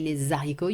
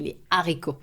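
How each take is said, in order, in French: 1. Un son z fait la liaison entre « les » et « haricots ». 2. Aucun son z ne fait la liaison entre « les » et « haricots ». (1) "you don't say les haricots" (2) "you say les haricots. Okay, because this H is aspiré again"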